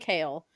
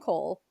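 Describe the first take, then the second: First: The name rhymes with 'kale'. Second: The name rhymes with 'coal'. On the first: "Are we saying Kale?" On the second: "Because I call him Cole"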